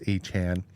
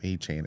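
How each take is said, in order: First: The last syllable sounds like 'Chan'. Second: The last syllable sounds like 'chain'. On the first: The speaker calls it right. "It's a Chan" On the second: The speaker calls it wrong. "I think we are calling him a chain"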